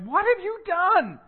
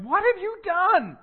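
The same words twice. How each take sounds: First: It is asked in an exasperated, accusing tone. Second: It is asked in an exasperated, accusing tone.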